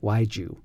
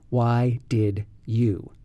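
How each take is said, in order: First: 'Did' shrinks to a 'd' joined to 'why'. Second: Every word is fully pronounced, including 'did'. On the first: "in regular American English pronunciation, why'd you comes out" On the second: "it's what happens when we say"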